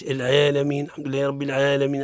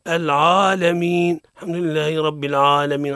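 First: "العالمين" with the ayn's a leaning towards e; wrongly thin "عا" towards "ʕee" in "العالمين"; tilted, fronted vowel in "العالمين"; over-thin ayn. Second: "العالمين" with the ayn's long a too thick and backed; exaggerated full-mouthed aa in "العالمين"; over-heavy ayn. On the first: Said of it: "المبالغة في ترقيقها". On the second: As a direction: wrongly darken the "عا" in "العالمين". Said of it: "المبالغة في تفخيمها". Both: Shown as a demonstration.

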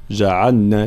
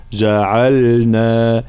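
First: جعلنا with the ل slurred, ja'alna; wrong lam. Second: Very slow جعلنا with a sukun ل; clear lam. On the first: Teacher shows the wrong جعلنا. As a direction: say جعلنا with a vowel on the ل. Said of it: "فلا نقول جعلنا". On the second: Teacher models correct جعلنا, very slow. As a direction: draw out جعلنا, ل held still. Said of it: "لابد من إظهار اللام". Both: Shown as a demonstration.

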